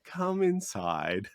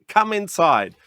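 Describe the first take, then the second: First: Soft invitation. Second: Eager call. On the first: Inviting customer into store. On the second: Waving customer into store. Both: Retold or imitated.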